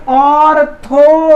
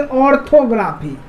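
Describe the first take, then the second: First: orthography slowly as ऑर, थो, ग्रा, फी; split into syllables. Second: Said in the usual way. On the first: Shown as a demonstration. Teacher asking students to pronounce it, split into syllables. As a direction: stretch each of the four beats in orthography. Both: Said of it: "अब इसका उच्चारण कीजिए".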